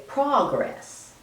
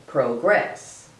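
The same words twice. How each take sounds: First: "progress" as PRAH-gress, open first vowel; noun pronunciation. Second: "progress" with a long o, PRO-gress; verb pronunciation. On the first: Lecturer showing how people say the noun, open-ah pronunciation. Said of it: "as a noun, people usually say". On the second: Lecturer showing how people say the verb, long-o pronunciation. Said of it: "As a verb, most people say". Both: Shown as a demonstration.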